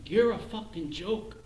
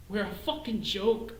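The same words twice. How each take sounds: First: "You're" lifted and hit first, rising; accusing stress on "You're" in "You're a fucking joke". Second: "fucking" pushed up with a rising tune; bitter punch on "fucking" in "We're a fucking joke"; stress on fucking. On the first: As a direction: jab the word "You're" at them. Same line turned on listener. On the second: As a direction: lean hard on "fucking", then let it land. Bitter self-mockery, stress shift. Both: Acted.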